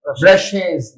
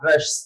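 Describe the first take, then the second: First: The ending adds an extra 'iz' syllable. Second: The ending has no extra 'iz' syllable. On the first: The speaker calls it right. "its pronunciation is brushes" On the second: The speaker calls it wrong. "not brush"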